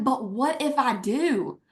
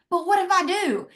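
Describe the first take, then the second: First: Said in the usual way. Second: Pitch jumps up on the repeat. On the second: Retold or imitated. Answering her doubtful husband, hopeful defiance pitched high. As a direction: repeat "But what if I do?" much higher, hopeful and insistent.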